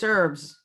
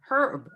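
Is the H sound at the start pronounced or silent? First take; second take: silent; pronounced. First: The word starts without an H sound. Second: The word starts with an H sound. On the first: "the H is sort of silent" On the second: "but people do say her, herb"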